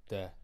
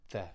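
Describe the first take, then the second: First: "the" said with a hard d, "de". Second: Said in the usual way. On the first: Shown as a demonstration. Galway man showing his local habit, "the" as "de". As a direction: drop the TH in "the" to a d. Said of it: "we don't really do T H". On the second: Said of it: "rather than the".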